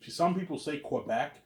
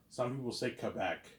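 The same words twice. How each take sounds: First: "Quebec" drawn out slowly with a kw start; "Quebec" pronounced kweh-BEC. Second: "Quebec" starting with a plain k; "Quebec" pronounced kuh-BEC. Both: Shown as a demonstration. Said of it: "two ways of pronouncing it".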